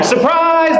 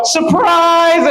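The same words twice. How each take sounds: First: Bright party surprise yell, high; mock happy party greeting; cheerful surprise. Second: High mock threatening surprise; menacing surprise. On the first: Party guests greeting the president, cheery high surprise. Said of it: "instead of, like". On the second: Coup plotters ambushing the president, mock menacing surprise. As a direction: say it like a gun is drawn. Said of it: "they go".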